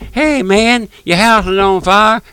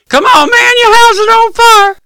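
First: It is said softly and casually. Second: It is said loudly and with urgency.

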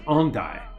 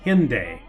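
First: The name is said with a French pronunciation. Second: The name is said with an American pronunciation. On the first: The speaker calls it right. "the correct pronunciation is Hendaye" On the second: The speaker calls it wrong. "the way we would say it in America"

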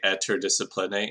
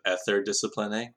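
First: The middle consonant is a hard T sound. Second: The middle consonant is a TH sound.

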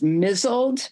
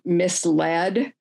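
First: It is said as one syllable block, 'mizzled'. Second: It is said as two parts, 'mis-led'. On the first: The speaker calls it wrong. "the word was mizzled" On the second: The speaker calls it right. "when it's really misled"

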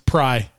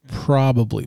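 First: The word is squeezed into one short syllable. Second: All three syllables of the word are pronounced. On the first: "it's not even probably. It's pry" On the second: "I tell myself, say it right"

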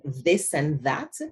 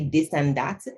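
First: The words begin with a th sound. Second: The words begin with a d sound. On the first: "the v sound, as in this and that" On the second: "We tend to say this and that"

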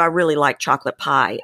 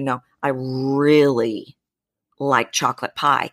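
First: The word 'really' is said at normal length. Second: The word 'really' is drawn out long.

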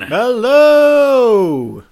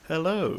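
First: It is said with big showy energy. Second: It is said in a calm, quiet way.

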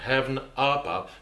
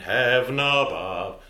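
First: The two words are kept apart. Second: The two words are linked together. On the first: The speaker calls it wrong. "I wouldn't say heaven above" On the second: The speaker calls it right. "I would elide that"

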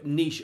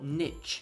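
First: It is said with a British pronunciation. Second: It is said with an American pronunciation.

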